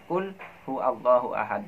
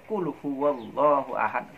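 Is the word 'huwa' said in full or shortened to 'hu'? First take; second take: shortened; full. First: The pronoun is cut short to hu before Allahu. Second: The pronoun is said fully as huwa, linked. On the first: "yang sering saya dengar orang membacanya" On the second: "yang benar memang qul huwallahu ahad"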